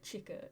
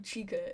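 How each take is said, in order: First: The name is said with shorter, clipped sounds. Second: The name is said with longer, drawn-out sounds. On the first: The speaker calls it right. "I think it's like a shorter" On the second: The speaker calls it wrong. "as in like Five Nights at Freddy's"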